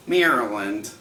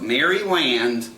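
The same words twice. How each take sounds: First: Said in the usual way. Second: "Maryland" said as Mary-land; "Maryland" in two clear words, Mary plus land; spelling pronunciation. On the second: Shown as a demonstration. Says state name two ways.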